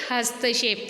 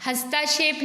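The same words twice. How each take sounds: First: हस्तक्षेप said as "hasta-kshep"; हस्तक्षेप with no आ after त; short त. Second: हस्तक्षेप said as "hastaa-kshep"; wrong long ता. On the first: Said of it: "ता में आ की मात्रा नहीं आएगी". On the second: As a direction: lengthen त to ता in हस्तक्षेप. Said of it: "हस्तक्षेप नहीं". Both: Shown as a demonstration.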